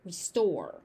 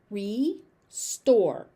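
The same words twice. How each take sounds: First: Said in the usual way. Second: "Restore" split as ree, store; syllable by syllable. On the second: Shown as a demonstration. Teacher breaking the word down for learners, syllable by syllable. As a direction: pause between the two syllables of "Restore".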